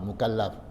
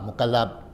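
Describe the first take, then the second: First: The final consonant is a breathy f sound. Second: The final consonant is a p-like sound. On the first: The speaker calls it right. "fa keluarkan angin kat, kat ujung mulut kita, fa" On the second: The speaker calls it wrong. "Kalau dalam bahasa Melayu, pa"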